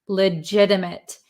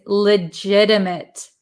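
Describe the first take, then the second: The two takes are said the same way.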